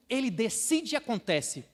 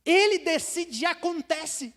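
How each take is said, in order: First: Said in the usual way. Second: Proclaimed loud and high; louder, higher proclamation. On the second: Shown as a demonstration. Preacher proclaiming God's power, loud and high. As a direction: ring it out as a declaration.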